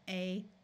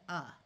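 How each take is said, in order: First: The vowel is a long 'ay' sound. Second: The vowel is a reduced 'uh' sound. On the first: "we will try the vowel's long sound" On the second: "we wind up pronouncing it like the and uh"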